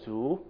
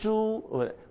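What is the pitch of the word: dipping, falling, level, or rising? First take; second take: rising; level. First: The pitch rises upward. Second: The pitch stays high and level. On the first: It means bamboo. "If I go up with my voice" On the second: It means pig. "the first tone"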